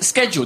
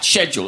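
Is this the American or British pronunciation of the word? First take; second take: American; British. First: It is said with an American pronunciation. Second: It is said with a British pronunciation. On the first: The speaker calls it wrong. "We watch a lot of American TV and we often hear this word pronounced as schedule. That's incorrect" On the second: The speaker calls it right. "The correct British way is, in fact"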